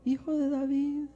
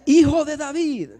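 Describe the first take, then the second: First: It is said very quietly. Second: It is shouted loudly.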